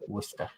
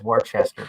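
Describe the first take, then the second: First: The name is said in its shortened local form. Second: Every written syllable of the name is pronounced. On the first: This is how the locals say the name. "but they pronounce it Worcester" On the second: This is how the name looks written. "I know it says Worcester"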